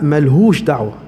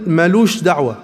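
First: The first word has an h sound. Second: The first word has no h sound. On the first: This is the older, full form. "كان اسمها ملهوش دعوة" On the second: This is the current, shortened form. "ما أنت بتقول مالوش دعوة"

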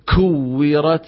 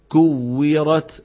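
First: The k has a strong, exaggerated puff of air. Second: The k has a light puff of air. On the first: The speaker calls it wrong. "ما نقول كويرت، هذا زايد عن اللزوم" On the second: The speaker calls it right. "همس ضعيف"

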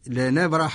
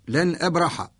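First: The glottal stop is dropped and the words merge. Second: A glottal stop is heard before the second word. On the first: "ونقرأ لورش لنبرح الأرض، لأن الهمزة ألقيت حركتها على الساكن قبلها فسقط صوت الهمزة" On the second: "لن كلمة وأبرح كلمة"

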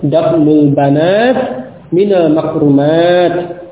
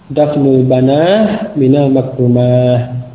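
First: The nouns end with a clipped 'at' sound. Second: The nouns end with a breathy 'ah' sound. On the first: This is the usual pausal form. "kalau waqaf ya, ... dengan ta" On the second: This is a less common pausal form. "ada pula yang membacanya dengan ha"

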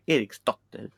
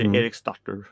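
First: The name is said with a Swedish accent. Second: The name is said with an English-like accent. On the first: The speaker calls it right. "Det blir Eriksdotter, riktigt" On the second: The speaker calls it wrong. "Det blir inte Eriksdotter eller något sånt där"

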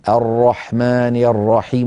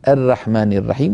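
First: The r sounds are heavy and thick. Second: The r sounds are light and thin. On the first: The speaker calls it right. "فخم الراءات" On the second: The speaker calls it wrong. "ولا تقولي"

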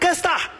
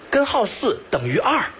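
First: The syllables are swallowed into two short sounds. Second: Every syllable is pronounced clearly and fully. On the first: The speaker calls it wrong. "你把你的舌头捋清再给我说一遍" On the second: The speaker calls it right. "他说的是"

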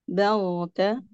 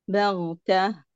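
The two takes are said the same way.

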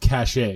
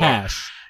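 First: The word is said with two syllables. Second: The word is said with one syllable. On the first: The speaker calls it wrong. "when Americans pronounce it cachet" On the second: The speaker calls it right. "it's cash"

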